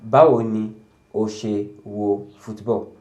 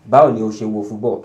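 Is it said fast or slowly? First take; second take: slowly; fast. First: It is said at a slow pace. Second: It is said at a fast pace.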